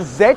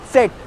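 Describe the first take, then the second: First: The word begins with a buzzing Z sound. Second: The word begins with a TS sound. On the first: The speaker calls it wrong. "don't say zet" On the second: The speaker calls it right. "It is set with a ts pronunciation"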